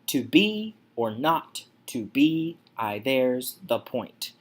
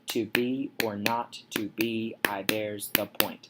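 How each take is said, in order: First: Syllables alternate unstressed and stressed. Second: Each syllable is counted out evenly.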